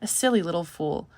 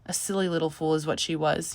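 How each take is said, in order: First: Said in the usual way. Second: Indulgent. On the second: A narrator's reading. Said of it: "smiled indulgently".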